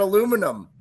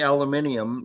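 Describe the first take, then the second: First: The word is said the American way. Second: The word is said the British way. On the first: The speaker corrects to the local form. "sorry, I meant aluminum ... I'm not in the U K anymore" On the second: The speaker has picked up a habit from living in the UK. "I actually find myself saying aluminium now to other people"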